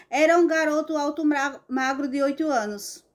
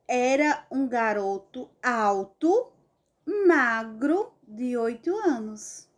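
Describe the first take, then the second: First: Fast, run-on, ignoring the commas; rushed wrong reading. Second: Slow, pausing at each vírgula; pausing at commas. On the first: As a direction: hurry through without pausing. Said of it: "Eu não posso ler assim". (leitura apressada e errada) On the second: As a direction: read with clear comma pauses. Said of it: "obedecendo a vírgula". (leitura pausada nas vírgulas) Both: Shown as a demonstration.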